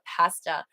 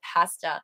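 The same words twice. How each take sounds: First: The word is said with a Canadian pronunciation. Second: The word is said with a Canadian pronunciation.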